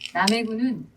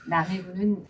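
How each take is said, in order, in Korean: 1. 목소리가 긴장되고 힘이 들어가 있어요. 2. 목소리가 편안하고 부드러워요. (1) "이렇게 말고" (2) "편안하게"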